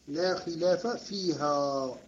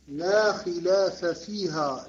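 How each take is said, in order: First: फيها not فيه, said slowly and clearly; slow corrected "فيها" with the feminine ending; corrected reading. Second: Said in the usual way. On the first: Shown as a demonstration. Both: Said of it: "لا، ما نقول فيه".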